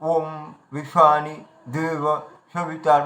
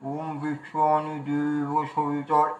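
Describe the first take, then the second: First: It is said spluttering, as if spitting something out. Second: It is said muffled, as if something fills the mouth. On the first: "যেন মুখের থেকে যেন গুটকা খেয়ে ফেলছি" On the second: "মুখে কিছু রেখে যদি উচ্চারণ করি"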